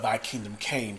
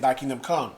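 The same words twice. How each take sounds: First: "came" set out as the correct word; stress on came. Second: "come" set out as the wrong word; stress on come. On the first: Pastor correcting the academy's name for listeners, stress on "came". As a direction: land evenly and firmly on "came". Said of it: "past tense. That's key". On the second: Pastor telling listeners what the name isn't, stress on "come". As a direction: lean on "come" as the word to rule out. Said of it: "Notice I'm not saying". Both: Shown as a demonstration.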